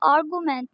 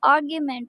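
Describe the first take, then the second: First: The g is followed directly by an oo sound. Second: The g is followed by a y glide. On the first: The speaker calls it wrong. "इसको आर्गूमेंट नहीं" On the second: The speaker calls it right. "आर्ग्यूमेंट pronounce करना है"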